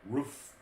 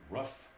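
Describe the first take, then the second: First: The vowel is long, like in boot. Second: The vowel is short, like in rough. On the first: "We say roof" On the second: "You guys say roof like rough"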